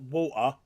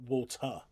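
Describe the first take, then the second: First: It is said in a plain, non-posh accent. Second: It is said in a posh accent.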